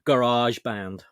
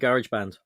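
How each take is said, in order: First: It is said in an American accent. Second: It is said in a non-American accent.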